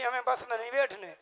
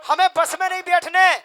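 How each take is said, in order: First: Said in the usual way. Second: Higher, louder stubborn refusal with a laugh; loud mock refusal. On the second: Woman refusing the bus, loud and laughing. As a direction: hammer home her absurd refusal, laughing. Same refusal repeated, punched up.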